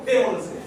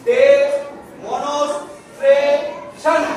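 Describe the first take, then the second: First: "ডে, মনস, tray" joined as one word, no pauses, lower; run together. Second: "ডে, মনস, tray, শন" with a clear pause between the parts; syllable by syllable. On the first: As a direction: blend "ডে, মনস, tray" straight through in one go. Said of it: "এবার আমি একসাথে বলবো". ("ডে, মনস, tray" একসাথে, না থেমে) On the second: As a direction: say "ডে", "মনস", "tray", "শন" each on its own. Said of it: "প্রথমে আমি ভাগ ভাগ করে বলবো". ("ডে, মনস, ট্রে, শন" আলাদা আলাদা করে, থেমে থেমে) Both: Shown as a demonstration.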